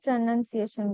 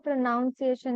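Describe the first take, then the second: First: The second syllable sounds like 'nun'. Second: The second syllable sounds like 'noun'. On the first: The speaker calls it right. "प्रोनाउंसिएशन बोलते हैं" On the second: The speaker calls it wrong. "इसको प्रोनाउंसिएशन नहीं"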